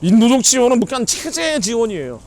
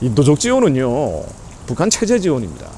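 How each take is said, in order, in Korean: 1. 목소리 크게 흥분해서 얘기해요. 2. 나긋나긋하게 부드럽게 얘기해요. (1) "이런 얘기할 때 좀 흥분을 해서" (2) "저도 나긋나긋하게 얘기할게요"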